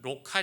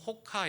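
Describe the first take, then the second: First: The word begins with an R sound. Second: The word begins with an H sound. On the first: This is how it looks in writing. "로카 이렇게 되어져 있는데" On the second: This is how Portuguese speakers read it. "포르투갈어로는 호카 이렇게 읽어요"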